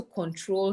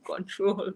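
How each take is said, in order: First: Said in the usual way. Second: The word "Control." said with a Mende accent; "Control." the Mende way her husband teases her about. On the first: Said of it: "I don't know why I pronounce it like that". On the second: Shown as a demonstration. Mother talking about her son, saying "Control." in a Mende accent. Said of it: "my husband will say I am having my Mende accent here".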